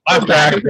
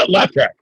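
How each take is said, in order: First: Said in the usual way. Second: Said through a laugh; laughing as you repeat it. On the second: Real, not acted.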